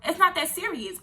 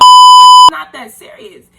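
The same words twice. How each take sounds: First: Said in the usual way. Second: Very high, loud and slow, half laughing; shrieking through laughter. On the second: Real, not acted. Telling viewers it's no big deal, high loud laughing squeal.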